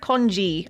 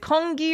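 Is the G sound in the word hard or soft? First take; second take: soft; hard. First: The word has a soft G sound. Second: The word has a hard G sound. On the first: "the soft G" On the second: "the hard G"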